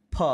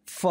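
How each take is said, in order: First: "फ" as "pha", both lips releasing air; aspirated ph. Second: "फ" as "fa", upper teeth on lower lip; nukta f sound. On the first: Teacher demonstrating for learners, "फ" as aspirated p. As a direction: close the lips and puff out "फ". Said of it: "दोनों होठों को मिलाकर". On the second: Teacher demonstrating the nukta letter, "फ" as fa. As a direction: let air hiss through "फ" as f. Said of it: "ऊपर वाली दांत को नीचे वाले होठ". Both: Shown as a demonstration.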